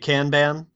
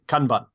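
First: Kanban is said with an American pronunciation. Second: Kanban is said with a clipped, staccato Japanese pronunciation. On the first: "if you're in America, you're likely to say Kanban" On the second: "the proper Japanese pronunciation, I think, is Kanban. It's very staccato"

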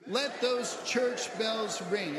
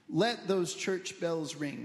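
First: It is said loudly, like a cheer. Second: It is said plainly, at normal energy.

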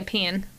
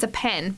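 First: The word is said with a southern accent. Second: The word is said with a northern accent. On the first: This is an occasional slip into local speech. The speaker calls it wrong. "sometimes I might slip up and say" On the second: This is the speaker's usual way of saying it. The speaker calls it right. "You'll still hear me say"

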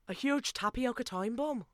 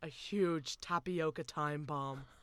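First: It is said in a put-on Welsh-style accent. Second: It is said in the speaker's natural accent.

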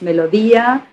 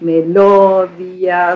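First: The stress falls on its normal syllable. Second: The stress falls on a displaced syllable. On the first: The speaker calls it right. "if the word is melodía" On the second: The speaker calls it wrong. "you can't say melodía"

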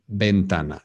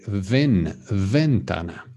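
First: It begins with a b sound. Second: It begins with an English v sound. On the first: The speaker calls it right. "the V is pronounced the same as a B" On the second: The speaker calls it wrong. "a lot of us say ventana"

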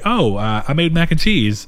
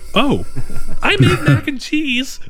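First: It is said in a natural, unforced way. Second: It is said with a forced, put-on smile.

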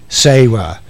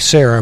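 First: The name sounds like 'Say-ruh', a Southern pronunciation. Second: The name has a general, non-Southern pronunciation. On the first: "My mom has said S-A-Y-R-U-H" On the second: "in the South, we don't say Sarah"

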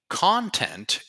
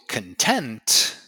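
First: The stress is on the first syllable. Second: The stress is on the second syllable. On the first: Material made for people to consume. "Same spelling, different pronunciation. Content is what you create, for example, for the internet" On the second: Feeling satisfied and happy. "when you feel content, you feel satisfied, happy"

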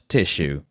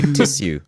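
First: The middle consonant is a sh sound. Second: The middle consonant is an s sound, not sh. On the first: The speaker calls it wrong. "and not tissue" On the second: The speaker calls it right. "My proper RP voice, ... There is no H in tissue"

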